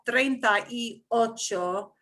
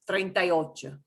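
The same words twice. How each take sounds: First: The three words are said slowly and separately. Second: The three words are run together quickly.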